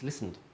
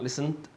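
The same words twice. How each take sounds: First: Said in the usual way. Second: "listened" said wrongly with an overdone ending, pitch rising; wrong pronunciation. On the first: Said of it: "It's listened". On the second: Shown as a demonstration. Teacher showing learners how not to say listened, wrong ending. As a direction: give "listened" a mistaken, stressed final sound, left hanging. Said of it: "It's not listened".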